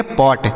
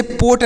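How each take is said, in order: First: पॉट with an open "aw" vowel; open-mouthed o in पॉट; correct vowel in पॉट. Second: पोट with a long closed "oh"; wrong vowel in पोट. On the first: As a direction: say पॉट like English "pot", open o. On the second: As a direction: say पोट to rhyme with "boat". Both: Shown as a demonstration. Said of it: "इसे पोट नहीं पढ़ना".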